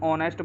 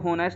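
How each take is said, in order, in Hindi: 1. शब्द की शुरुआत स्वर से होती है, h साइलेंट है। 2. शब्द की शुरुआत h की आवाज़ से होती है। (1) "इसको हम ऑनेस्ट बोलते हैं" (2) "इसको होनेस्ट नहीं बोलते"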